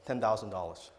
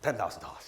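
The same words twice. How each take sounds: First: It is said confidently, without hesitation. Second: It is said nervously, with hesitation.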